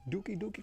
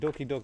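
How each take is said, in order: First: Each word has an 'oo' vowel sound. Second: Each word has an 'oh' vowel sound. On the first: The speaker calls it wrong. "not Dookie Dookie" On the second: The speaker calls it right. "I'm sure it's Doki Doki"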